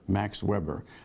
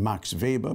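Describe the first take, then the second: First: Weber is said with an English pronunciation. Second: Weber is said with a German pronunciation.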